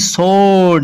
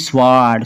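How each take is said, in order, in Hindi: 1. W की ध्वनि मौन है। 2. W की ध्वनि का उच्चारण होता है। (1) "एस के बाद आया है डब्ल्यू, इसलिए डब्ल्यू साइलेंट ही रहेगा" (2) "ना कि स्वाड"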